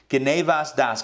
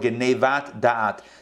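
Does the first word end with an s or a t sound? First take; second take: s; t. First: It is in an Ashkenazi accent, ending in s. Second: It is in a non-Ashkenazi accent, ending in t. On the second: "depending on how you want to pronounce it"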